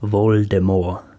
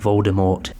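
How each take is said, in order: First: The final T is silent. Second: The final T is pronounced. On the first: This is how the author intended it. "pronounced with a silent T" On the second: This is how it is said in the films. "now it has stuck to be Voldemort"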